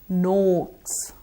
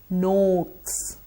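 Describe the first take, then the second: No difference in how they are said.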